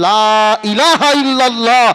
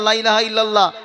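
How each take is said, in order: First: The 'la' is drawn out long and unhurried. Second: The 'la' is short and the phrase is rushed. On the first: It says there is no god but Allah. The speaker calls it right. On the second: It suggests there are other gods besides Allah. The speaker calls it wrong.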